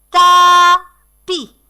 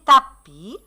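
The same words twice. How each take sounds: First: "tapis" loud and high, split into ta, pis; scanned syllables. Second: Said in the usual way. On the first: Shown as a demonstration. Teacher scanning "tapis" for the children, syllable by syllable. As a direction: call out "tapis" in two separate beats.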